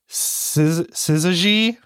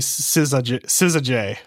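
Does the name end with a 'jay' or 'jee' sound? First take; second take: jee; jay. First: The name ends with a 'jee' sound. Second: The name ends with a 'jay' sound. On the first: "it's like Siza and then J-E-E. So is it like Sizaji?" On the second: "I know that I read it wrong, but I say Sizajay"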